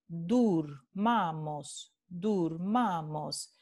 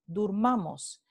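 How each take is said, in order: First: Durmamos drawn out slowly, each syllable clear; slow repeat. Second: Said in the usual way. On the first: Shown as a demonstration. Teacher repeating durmamos slowly for the class. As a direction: spell out durmamos slowly, dur-ma-mos. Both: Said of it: "De nuevo".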